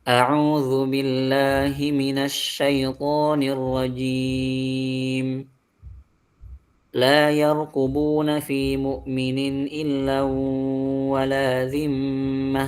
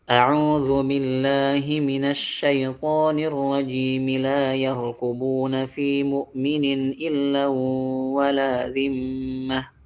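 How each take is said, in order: First: There is a pause after 'rajim' before the verse. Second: 'Rajim' runs straight into the verse without pausing. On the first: "Misalnya kita baca waqaf ya" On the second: "Kita waqaf ataupun kita wasal"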